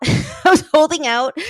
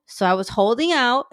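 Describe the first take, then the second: First: Laughing. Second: Said in the usual way. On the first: Real, not acted.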